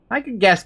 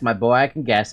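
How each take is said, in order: First: Higher, pointed first take of I can guess; knowing reply. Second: Settled repeat. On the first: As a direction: throw out I can guess with a lift on I. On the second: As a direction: let the repeat sink down. Repeats the reply more settled. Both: Acted.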